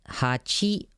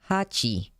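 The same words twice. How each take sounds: First: The pitch starts low and rises. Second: The pitch starts high and falls. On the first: "you go from down and then up" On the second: "and then up and then down"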